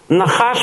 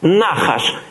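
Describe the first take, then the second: First: The stress is on the last syllable. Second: The stress is on the first syllable.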